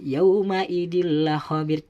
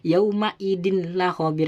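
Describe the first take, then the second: First: The n merges into a doubled l sound. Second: The n is pronounced separately before the l. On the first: The speaker calls it right. "tanwinnya seakan-akan masuk kepada lam dan bertasdid" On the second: The speaker calls it wrong. "tidak boleh"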